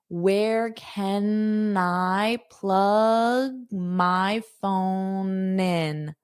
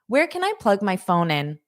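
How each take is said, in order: First: The sentence is said slowly and carefully. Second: The sentence is said quickly and naturally.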